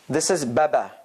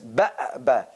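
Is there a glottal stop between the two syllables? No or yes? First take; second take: no; yes. First: The syllables run together with no glottal stop. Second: A glottal stop breaks between the two syllables. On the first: "if you want to remove that and check out, this is baba" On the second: "Break, glottal, glottal break"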